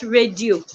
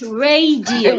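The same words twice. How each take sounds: First: The word is said with two syllables. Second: The word is said with three syllables. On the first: The speaker calls it wrong. "Not radio. ... It's not two syllables" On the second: The speaker calls it right. "It's radio. It has three syllables"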